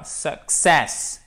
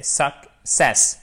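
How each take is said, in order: First: "success" wrongly split as "su, ksess"; wrong syllable split demo. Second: "success" very slowly as "suk, sess"; correct syllable split. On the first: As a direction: show the mistake: K pushed onto the end of "success". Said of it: "et c'est pas success". (« success » mal découpé, K en seconde syllabe) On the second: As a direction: model "success", K closing the first syllable. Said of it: "Vous avez le K qui est rattaché à la première syllabe". (« success » découpé très lentement, « suk, sess ») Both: Shown as a demonstration.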